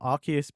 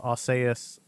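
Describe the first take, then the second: First: It uses the official pronunciation of the name. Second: It uses a different, grander-sounding pronunciation of the name. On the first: This is how the name is officially said. "Arceus being the official pronunciation" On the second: The name sounds grander and more godlike. "we decided to change it to Arceus because Arceus sounds like more regal, more godlike"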